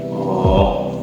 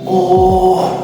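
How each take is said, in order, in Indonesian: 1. Diucapkan dengan nada rendah. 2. Diucapkan dengan nada tinggi. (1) "ketika kita kecewa biasa menggunakan nada rendah" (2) "kalau kita menggunakan nada tinggi itu biasanya untuk ketika kita kaget"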